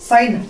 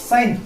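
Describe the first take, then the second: Both takes have the same delivery.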